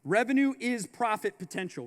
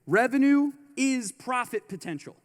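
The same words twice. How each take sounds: First: Said in the usual way. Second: Louder, punched revenue is profit potential; emphatic. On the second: Shown as a demonstration. To the audience, repeating the key line louder. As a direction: hammer the line home louder. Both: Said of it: "Remember this".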